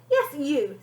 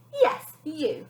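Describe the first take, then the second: First: Smirking. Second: Said in the usual way. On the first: A narrator's reading. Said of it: "said the lady with a smirk". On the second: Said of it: "Uh, sorry".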